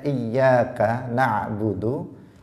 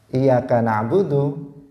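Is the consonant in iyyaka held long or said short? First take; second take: long; short. First: The y in iyyaka is held long. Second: The y in iyyaka is said short. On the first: Only to God do we offer worship. The speaker calls it right. "harusnya dia mengatakan membacanya" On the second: Only to sunlight do we offer worship. The speaker calls it wrong. "tanpa tasydid"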